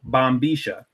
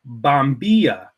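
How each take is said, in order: First: It is said in the Buenos Aires Porteño accent. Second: It is said in a non-Porteño standard accent. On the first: "I pronounce it bombisha ... the Porteño dialect" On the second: "You could also pronounce it bombilla"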